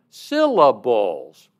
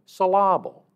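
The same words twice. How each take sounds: First: "syllables" as SIL-uh-buls, first syllable hit loud; correct first-syllable stress. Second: "syllable" with the stress wrongly on the second syllable, suh-LAH-bul. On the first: Teacher corrects a student, "syllables" loudly stressed on SIL. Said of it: "stress on the wrong syllable". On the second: Teacher jokingly scolds a student for misplaced stress, "syllable" stressed on LAH. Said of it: "putting the stress on the wrong". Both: Retold or imitated.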